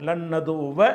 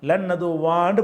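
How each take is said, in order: First: The final vowel is short, not drawn out. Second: The final vowel is long and drawn out. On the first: The speaker calls it right. "என்று படிப்போமே" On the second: The speaker calls it wrong. "படிக்க மாட்டோம்"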